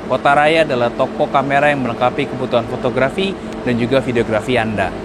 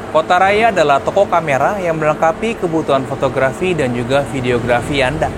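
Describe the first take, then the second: First: The voice has a low EQ, recorded outdoors. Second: The voice has a balanced EQ, recorded outdoors. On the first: "saya masih menggunakan E Q preset yang low dan suara saya di outdoor seperti ini" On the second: "sekarang saya sudah menggunakan E Q preset yang balance di kondisi outdoor dan ada angin"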